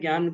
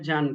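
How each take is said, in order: First: The word is pronounced the Hindi way. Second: The word is pronounced the Sanskrit way. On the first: "Hindi में इसे ज्ञान कहेंगे" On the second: "Sanskrit में जान कहेंगे"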